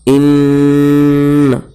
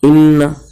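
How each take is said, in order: First: The nasal sound is held for longer. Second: The nasal sound is held only briefly. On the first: The speaker calls it right. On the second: The speaker calls it wrong.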